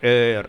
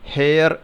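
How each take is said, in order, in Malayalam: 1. ഈ വാക്ക് ഒരു സ്വരാക്ഷരത്തിലാണ് തുടങ്ങുന്നത്, h ഇല്ല. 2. ഈ വാക്ക് കേൾക്കാവുന്ന h ശബ്ദത്തിലാണ് തുടങ്ങുന്നത്. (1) "ഇവിടെ എച്ചിന് ഉച്ചാരണം ഇല്ല, അത് സൈലൻ്റ് ആണ്" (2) "ഹെയർ എന്ന് വായിക്കാവുന്ന വാക്ക്"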